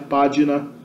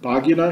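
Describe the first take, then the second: First: It uses the modern Italian Latin pronunciation. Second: It uses the ancient classical Latin pronunciation. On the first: "na pronúncia italiana moderna" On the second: "na pronúncia clássica da antiguidade"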